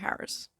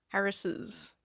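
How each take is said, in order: First: It ends without an extra syllable. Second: It ends with an extra 'iz' syllable. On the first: The speaker calls it right. "You just go Harris" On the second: The speaker calls it wrong. "we do not say sisses"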